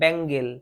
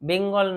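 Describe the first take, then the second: First: The first vowel sounds like 'a' in bat. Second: The first vowel sounds like 'e' in bed. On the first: The speaker calls it right. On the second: The speaker calls it wrong. "বেঙ্গল নয়"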